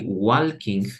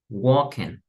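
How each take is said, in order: First: The L sound is pronounced in the word. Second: The L sound is left out of the word. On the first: The speaker calls it wrong. "we don't say walking" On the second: The speaker calls it right. "we omit the L, and you would say like walking"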